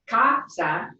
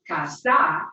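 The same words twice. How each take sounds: First: The stress is on the first syllable. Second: The stress is on the last syllable. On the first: The speaker calls it right. "the natural stress will be on the next to last syllable" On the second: The speaker calls it wrong. "and not casa"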